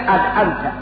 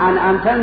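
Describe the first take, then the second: First: The consonant after the first vowel is d. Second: The consonant after the first vowel is n. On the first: The speaker calls it wrong. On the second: The speaker calls it right.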